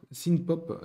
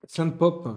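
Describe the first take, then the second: First: "synth" with an English short i and sounded n; attempted English pronunciation. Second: "synth" with a French nasal vowel, like "synthé"; French-accented pronunciation. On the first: Vlogger retries the genre name, attempted English pronunciation. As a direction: say "synth pop" with "synth" like "sin". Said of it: "mon accent anglais est". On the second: Vlogger naming the music genre, French-accented pronunciation. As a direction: say "synth pop" with "synth" rhyming with French "saint". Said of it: "synth comme le synthé". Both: Shown as a demonstration.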